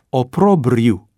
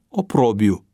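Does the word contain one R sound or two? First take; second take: two Rs; one R. First: Both R sounds are pronounced. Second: The second R after the B is dropped. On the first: The speaker calls it right. "corect se pronunță" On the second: The speaker calls it wrong. "a comis greșeala să suprime consoana R care se repetă"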